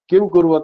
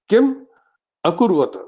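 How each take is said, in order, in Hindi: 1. 'kurvata' से पहले का 'a' छोड़ दिया जाता है। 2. 'kurvata' से पहले का 'a' स्पष्ट रूप से बोला जाता है। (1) "इसका लोग गलत तरह से उच्चारण करते हैं" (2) "पर इसमें दो शब्द है"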